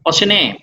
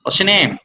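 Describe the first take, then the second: First: The t sound is soft and nearly dropped. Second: The t sound is soft and nearly dropped.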